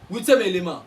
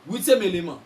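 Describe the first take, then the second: No difference in how they are said.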